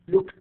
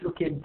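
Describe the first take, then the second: First: The ending is said as a plain T sound. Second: The ending is not said as a T sound. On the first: The speaker calls it right. "I pronounce E V as T" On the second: The speaker calls it wrong.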